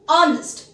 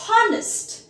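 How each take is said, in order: First: The word starts without an h sound. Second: The word starts with an h sound. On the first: The speaker calls it right. "The H is silent here" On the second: The speaker calls it wrong. "We do not pronounce it as honest"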